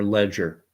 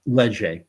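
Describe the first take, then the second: First: "Ledger" said the English way, ending in "-er"; English-style pronunciation. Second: "Leger" said the French way, ending in "-ay"; French-style pronunciation. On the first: Host offering the alternative reading of the pollster's name, "Ledger" pronounced English-style. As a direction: say "Ledger" as plain English "LEJ-er". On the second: Host offering viewers the French reading of the pollster's name, "Leger" pronounced French-style. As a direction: say "Leger" as French "lay-ZHAY". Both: Shown as a demonstration. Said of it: "how you wanna pronounce it".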